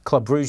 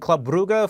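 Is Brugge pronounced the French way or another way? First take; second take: French; another way. First: Brugge is said the French way. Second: Brugge is said in a non-French way.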